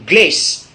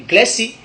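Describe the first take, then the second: First: "glace" as one syllable, gless; English pronunciation. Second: "glassy" with an added final i; Godié pronunciation. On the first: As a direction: end "glace" on the s sound. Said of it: "qu'on appelle glace en anglais". (« glace » à l'anglaise, prononcé glèss) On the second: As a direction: open it out as glè-si. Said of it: "et en gaudier". (« glassy » à la godié, prononcé glè-si) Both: Shown as a demonstration.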